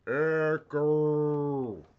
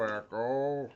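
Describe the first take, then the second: First: Loud called echo test; cave echo. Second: Cave echo. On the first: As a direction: shout the word to test the echo. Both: Shown as a demonstration. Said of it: "Oh, I can hear echo".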